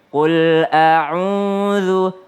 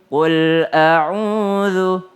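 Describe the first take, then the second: No difference in how they are said.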